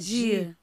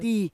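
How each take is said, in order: First: It is said the Rio de Janeiro way. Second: It is said the Northeastern Brazilian way. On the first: This is how people from Rio say it. "o carioca, ou não fala di, fala di" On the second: This is how the interviewee's own region says it. "Você fala o di"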